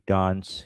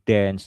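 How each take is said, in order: First: It is said in a British accent. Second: It is said in an American accent.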